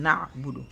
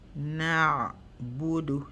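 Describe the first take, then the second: First: The ain sound is cut off abruptly. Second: The ain sound is drawn out and echoes. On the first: The speaker calls it wrong. "instead of saying na'budu" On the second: The speaker calls it right. "Let the sound stop itself"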